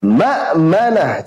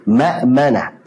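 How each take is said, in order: First: Ma'manah slow, hamzah pushed with breath; salah, hamzah terengah; exaggerated breathy hamzah. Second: Ma'manah slow, hamzah smooth and light; soft hamzah. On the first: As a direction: drag Ma'manah out wrongly. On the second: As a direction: let Ma'manah flow gently. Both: Shown as a demonstration.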